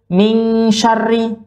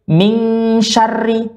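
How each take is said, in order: The two takes are said the same way.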